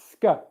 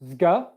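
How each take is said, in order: First: The consonants are voiceless. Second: The consonants are voiced. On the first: The speaker calls it right. "It's ska" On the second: The speaker calls it wrong. "It's not zga, You do not want to make that with any voicing"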